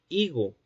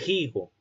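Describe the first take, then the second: First: It starts directly with the vowel, no breath. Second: It starts with a breathy h sound. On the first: This is the modern pronunciation. "como lo decimos actualmente" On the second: This is the medieval pronunciation. "con un fricativo eh, glotal sordo al comienzo"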